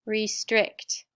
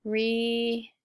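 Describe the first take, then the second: First: Said in the usual way. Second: "restrict" stretched syllable by syllable; "restrict" broken in two long parts; sounded out. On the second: Shown as a demonstration. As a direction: sound out "restrict" slowly, re... strict. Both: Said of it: "sound it out with me".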